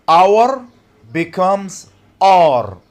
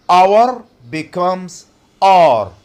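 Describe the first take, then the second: The two takes are said the same way.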